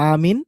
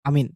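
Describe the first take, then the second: First: The first vowel is drawn out long. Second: The first vowel is kept short.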